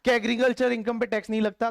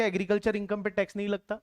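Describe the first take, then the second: First: Said in the usual way. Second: Quick reading of the list entry. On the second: Shown as a demonstration. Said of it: "ये इन्होंने दे रखा है".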